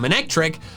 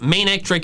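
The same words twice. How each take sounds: First: The first part sounds like the start of maneuver. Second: The first part sounds like the word mane. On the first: The name comes from maneuver. The speaker calls it wrong. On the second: The name comes from a mane. The speaker calls it right.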